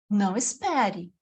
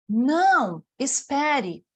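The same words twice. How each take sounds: First: The two words run together without a pause. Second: There is a pause after the first word. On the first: The listener is told not to wait. "quando eu leio com ou sem vírgula" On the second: The listener is told to wait. "quando eu leio com ou sem vírgula"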